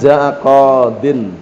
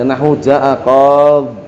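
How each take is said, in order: First: The word ends with a din sound. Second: The word ends on a bare d sound. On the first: It is the original form with nunation. "aslinya jaa qadin tanwin" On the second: It is the pausal form with the ending dropped. "dibuang ya-nya"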